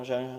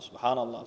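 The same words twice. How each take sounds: First: The word is mumbled indistinctly. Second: The word is said clearly and distinctly.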